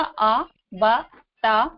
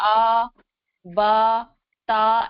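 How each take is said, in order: First: The syllables are said short and clipped. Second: The syllables are drawn out and lengthened. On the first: The speaker calls it right. "सही तरीका" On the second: The speaker calls it wrong. "इनको खींच के नहीं पढ़ना है ... ऐसे नहीं पढ़ना है"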